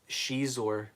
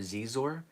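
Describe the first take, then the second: First: The name begins with a sh sound. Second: The name begins with a z sound. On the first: The speaker calls it right. "the Z is a like a she uh, pronunciation" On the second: The speaker calls it wrong. "he kept calling Shizor uh, Zizor"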